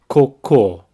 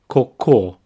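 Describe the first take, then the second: First: The stress is on the last syllable. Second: The same.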